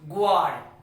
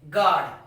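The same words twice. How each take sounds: First: The U is sounded after the g. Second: The U is silent after the g. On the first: The speaker calls it wrong. "not guard" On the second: The speaker calls it right. "you will pronounce it guard"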